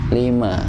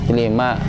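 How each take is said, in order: Both takes have the same delivery.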